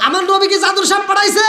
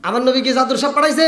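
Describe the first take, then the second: First: High shouted rhetorical question; roused challenge. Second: Quick rhetorical question at normal pitch; brisk challenge. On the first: Preacher presses congregation to answer about his Prophet, shouted challenge. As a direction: raise it to a ringing challenge. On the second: Preacher asks congregation about his Prophet, brisk challenge. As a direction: put it briskly to the crowd. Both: Shown as a demonstration.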